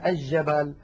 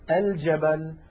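First: The L blends into a doubled first consonant. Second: The L is clearly pronounced before the consonant. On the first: The speaker calls it wrong. "هذا لا يصح" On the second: The speaker calls it right. "الفصحى"

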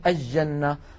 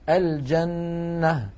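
First: The l merges into a doubled j sound. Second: The l is clearly pronounced before the j. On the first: The speaker calls it wrong. "بعض الناس يقولون الجنة" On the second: The speaker calls it right. "الفصحى أن نقول"

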